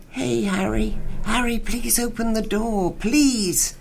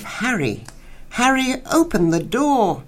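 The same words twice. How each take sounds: First: Pleading. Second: High, wailing plea for Harry; a woman crying out through a locked door, pitched high. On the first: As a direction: beg Harry to open the door, lightly voiced. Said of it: "But then she renewed her pleading". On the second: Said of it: "but now a wail of". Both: Acted.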